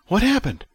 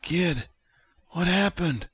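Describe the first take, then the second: First: Loud, high, frantic question. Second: High, weak, strained voice; Vic. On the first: June runs back into the kitchen, frantic. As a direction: burst out with it, high and alarmed. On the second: Haggard patient asks the kid what happened, weakly. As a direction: ask feebly, short of strength. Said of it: "Vic took a haggard breath". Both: A narrator's reading.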